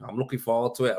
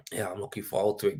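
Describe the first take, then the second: First: Said in the usual way. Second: Quick unvoiced whisper; hushed aside to the viewers. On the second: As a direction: breathe it out as a whisper, no voice. Repeating the same line, whispered.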